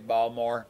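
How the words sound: The word is squeezed into two lazy syllables. "It's like a lazy Balmore"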